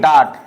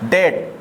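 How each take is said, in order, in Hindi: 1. स्वर 'father' के 'ah' जैसा सुनाई देता है। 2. स्वर 'day' के 'ay' जैसा सुनाई देता है। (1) "डाट हमारा गलत हो जाएगा" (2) "डेट हमारा सही रहेगा"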